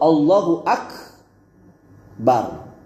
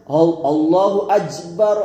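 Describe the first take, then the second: First: Akbar is said with a k sound. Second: Akbar is said with a j sound. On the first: The speaker calls it right. "Jadi yang benar itu" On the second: The speaker calls it wrong. "merubah kaf pada akbar dengan jim"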